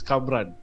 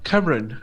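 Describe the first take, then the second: First: The name is said as the two-syllable Kamran. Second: The name sounds like the English name Cameron. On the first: This is the real form of the name. The speaker calls it right. "it's Kamran" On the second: This is how some other people say the name. The speaker calls it wrong. "they go like Cameron. Like no"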